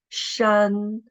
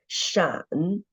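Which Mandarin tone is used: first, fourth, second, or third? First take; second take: first; third. First: The syllable is said with the first tone. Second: The syllable is said with the third tone. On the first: "the tone is the first tone" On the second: "and the third tone"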